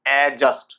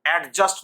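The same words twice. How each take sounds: First: অ্যাডজাস্ট as a-just, d silent; loud, clear a-just for অ্যাডজাস্ট; no d before the j in অ্যাডজাস্ট; correct pronunciation. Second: অ্যাডজাস্ট with the d sounded, ad-just; loud ad-just with a stopped d for অ্যাডজাস্ট; wrong pronunciation. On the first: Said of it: "প্রকৃত উচ্চারণ". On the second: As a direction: hit the d before j in অ্যাডজাস্ট. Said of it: "অ্যাডজাস্ট নয়". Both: Shown as a demonstration.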